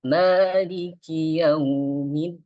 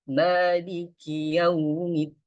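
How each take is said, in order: First: Maliki yaumiddin recited with a melodic rising tune, slow; wrong tuneful reading. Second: Maliki yaumiddin slow, with one single swing of the voice; correct recitation. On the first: Teacher demonstrates the wrong melodic recitation. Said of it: "jadi di sini nggak boleh". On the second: Teacher models the correct recitation for students. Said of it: "Cuman satu ayunan aja". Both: Shown as a demonstration.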